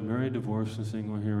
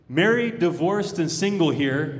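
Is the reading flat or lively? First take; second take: flat; lively. First: It is read in a flat, dull monotone. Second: It is read loudly, with lively conviction. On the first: The speaker calls it wrong. "it's just the way we're trained in church. We'll be like" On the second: The speaker calls it right. "let's read it like we mean it and read it loudly"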